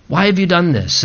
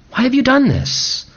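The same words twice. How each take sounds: First: Said in the usual way. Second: Pitched up high in disbelief; a high, aching why; high pleading cry. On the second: Acted. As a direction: cry out Why have you done this, high and pained. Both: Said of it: "he challenges us in that way".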